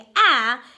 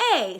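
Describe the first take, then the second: First: The vowel is said with its short sound. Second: The vowel is said with its long sound. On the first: The speaker calls it wrong. "instead of saying a" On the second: The speaker calls it right. "my first vowel is going to say its name"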